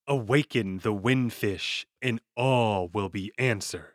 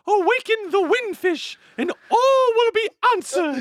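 First: It is said in a smooth, ordinary voice. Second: It is said in a hooting, owl-like voice. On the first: "don't just give us a smooth voice" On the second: "Give us a little owl"

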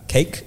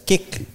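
First: The vowel is the long ay sound of cake. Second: The vowel is the short i sound of kick. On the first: "she used to pronounce it as cake" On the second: "as kick"

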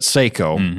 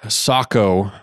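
First: The name is said the American way. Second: The name is said the non-American way.

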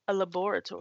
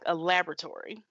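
First: It is said in a British accent. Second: It is said in an American accent.

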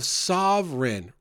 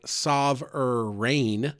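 First: The last syllable is reduced, not like rain. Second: The last syllable sounds like the word rain. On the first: The speaker calls it wrong. "I pronounce it maybe not great" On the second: The speaker calls it right. "It's really more like sovereign, rain"

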